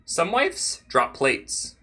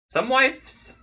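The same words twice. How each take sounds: First: Slow, drawn-out statement; slow emphatic. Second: Sudden high squeaky voice; high squeak. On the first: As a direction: stretch each word out. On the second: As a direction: pop up into a squeak. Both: Pretend.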